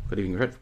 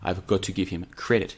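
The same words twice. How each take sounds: First: "Got to give him credit" slurred and swallowed; fumbled words. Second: "I've got to give him credit" said distinctly; careful retry. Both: Real, not acted. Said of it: "let me try and say it again".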